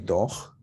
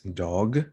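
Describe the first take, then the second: First: The final consonant is voiceless, without vibration. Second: The final consonant is a voiced g sound. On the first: The speaker calls it wrong. "it's not really doch" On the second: The speaker calls it right. "with a g, and g has voice"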